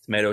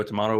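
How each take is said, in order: First: TOMATO with an "ay" in the middle; tomayto. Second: TOMATO with an "ah" in the middle; tomahto. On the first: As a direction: say TOMATO as "tuh-MAY-doh". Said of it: "you say tomato". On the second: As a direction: say TOMATO as "tuh-MAH-toh". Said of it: "I say tomato". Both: Shown as a demonstration.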